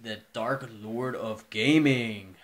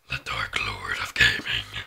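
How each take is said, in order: First: It is said in the normal speaking voice. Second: It is said in a put-on weird voice.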